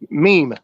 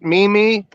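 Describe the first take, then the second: First: It is said as a single syllable. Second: It is said as two separate syllables. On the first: "one word" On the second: "like two me's, like two stands"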